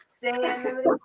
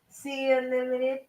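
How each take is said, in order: First: The first word sounds like 'say'. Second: The first word sounds like 'see'. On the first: It means saying whatever one wants. "I'm gonna say what I need to" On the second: It means seeing opportunity and possibility. "I can put something out and I can say"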